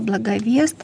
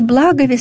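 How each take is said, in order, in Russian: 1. Ударение не на первом слоге. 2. Ударение на первом слоге. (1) "Здесь тоже люди ошибаются, говоря «благовест»" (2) "ударение на первый слог"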